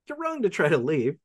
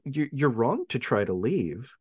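First: The line is said in a bright, cheerful tone. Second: The line is said in a grim, serious tone. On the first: The speaker calls it right. "Very cheerful" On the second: The speaker calls it wrong. "I'm saying it wrong"

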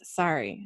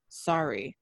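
First: It is said in a normal voice. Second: It is said in a lower voice.

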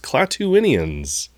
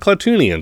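First: The word is said with the extra 'in' sound. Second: The word is said without the extra 'in' sound. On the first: The speaker calls it right. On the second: The speaker calls it wrong. "there's an extra I and N that he did not pronounce. It's not"

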